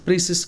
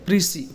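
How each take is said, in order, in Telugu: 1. ఆ పదం స్పష్టమైన s శబ్దంతో ముగుస్తుంది. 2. ఆ పదం అచ్చుతో ముగుస్తుంది, s లేదు. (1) "ప్రీసిస్ కాదు" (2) "దీన్ని పలకాల్సింది ఎలా అంటే ప్రీసీ"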